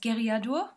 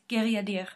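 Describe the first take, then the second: First: The last syllable has a u vowel sound. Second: The last syllable has an e vowel sound. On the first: The speaker calls it wrong. "what I pronounced as" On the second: The speaker calls it right. "the U ... is actually an E"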